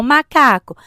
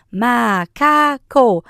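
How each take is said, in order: First: Said in the usual way. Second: "macaco" drawn out slowly as MA, CA, CO; split into syllables. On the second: Shown as a demonstration. Breaking words with a child, "macaco" syllable by syllable. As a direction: break "macaco" into three long beats. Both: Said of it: "separa as palavras".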